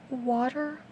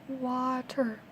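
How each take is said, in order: No difference in how they are said.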